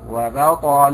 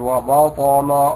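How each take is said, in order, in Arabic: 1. تُنطق الباء مرقَّقة وخفيفة. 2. تُنطق الباء مفخَّمة وممتلئة. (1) "أن يرقق اللفظ بها" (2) "لا تقل"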